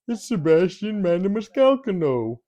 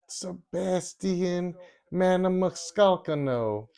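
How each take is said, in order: First: It is said in a Homer Simpson voice. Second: It is said in his normal voice.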